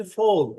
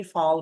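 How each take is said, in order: First: British English pronunciation. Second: American English pronunciation. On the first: Teacher contrasting how British English says ফল, British pronunciation. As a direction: FALL as the British say it, rounded "fol". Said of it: "British ইংলিশে ফল এভাবে উচ্চারণ করা হয়". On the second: Teacher showing learners how American English says ফল, American pronunciation. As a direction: FALL as Americans say it, open vowel in ফল. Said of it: "American ইংলিশে এটাকে ফল বলে". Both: Shown as a demonstration.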